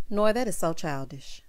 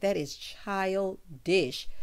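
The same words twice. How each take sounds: First: Said in the usual way. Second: Put-on That is childish drawn out very slowly, every word weighed; slow emphatic childish. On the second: Shown as a demonstration. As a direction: stretch That is childish out, disapproving.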